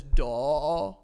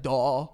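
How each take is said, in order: First: "daw" with mouth open, no r; drawn-out British "daw"; mock British daw. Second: "Daw" loud and open, no r; open-mouthed British "Daw"; mock British daw. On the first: Imitating the singer to the co-host, open "daw". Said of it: "the way he says". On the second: Copying the singer for his friend, loud "Daw". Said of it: "he's like".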